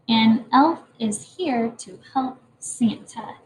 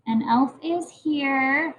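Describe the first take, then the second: First: Slow and careful, word by word; slow reading aloud. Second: Slow, word by word; slow reading aloud. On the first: Teacher reading the finished sentence slowly to the class. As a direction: read the whole sentence slowly. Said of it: "That's my sentence for you today". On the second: Teacher rereading the sentence slowly to the class. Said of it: "add more to my sentence". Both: Shown as a demonstration.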